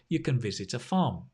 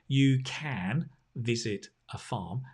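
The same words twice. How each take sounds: First: Can has a weak schwa vowel. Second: Can has a full, clear vowel. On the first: The speaker calls it right. "They say" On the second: The speaker calls it wrong. "they don't say"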